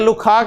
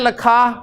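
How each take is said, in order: First: The first vowel is a short 'u'. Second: The first vowel is a short 'a'. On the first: "लिखा में अगर मैं लखा या लुखा कह दूं" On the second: "लिखा में अगर मैं लखा या लुखा कह दूं"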